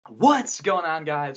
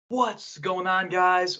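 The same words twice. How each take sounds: First: It is said with lively enthusiasm. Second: It is said flatly, without enthusiasm.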